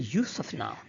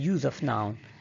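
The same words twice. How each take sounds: First: Use is said the way the noun sounds. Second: Use is said the way the verb sounds. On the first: The speaker calls it right. "so we must say" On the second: The speaker calls it wrong. "is wrong because here it's not used as a verb"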